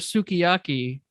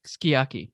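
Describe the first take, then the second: First: The u vowel after the first consonant is sounded. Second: The u vowel after the first consonant is dropped. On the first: "same for sukiyaki" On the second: "it's just pronounced s- skiyaki"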